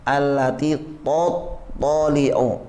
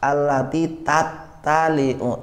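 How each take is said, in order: First: Both t sounds are heavy and emphatic. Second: Both t sounds are light and plain. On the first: "Tot, dia udah fokusnya ke to jadi tanya ikut to" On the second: "tak dua-duanya"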